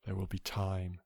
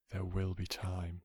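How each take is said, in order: Both takes have the same delivery.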